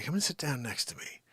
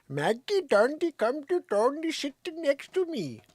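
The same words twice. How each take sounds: First: Said in the usual way. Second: Much higher, sing-song pet calling; mock Saint Bernard babble. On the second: Shown as a demonstration. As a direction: coax in made-up dog language. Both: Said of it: "how I say".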